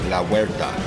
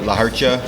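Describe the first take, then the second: First: The second word starts with a 'wer' glide. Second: The second word ends with a 'cha' sound. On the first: The speaker calls it right. "but it's La Huerta" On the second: The speaker calls it wrong. "They say La Hercha"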